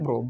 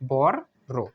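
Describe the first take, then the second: First: It is said as one short blended syllable. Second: It is split into two separate spoken parts. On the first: This is how the word is actually pronounced. "কিন্তু উচ্চারণ কি হবে?" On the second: This form helps to remember the spelling. "আমরা প্রথমে লিখবো বর ... তারপর লিখবো আর ও ডাব্লিউ"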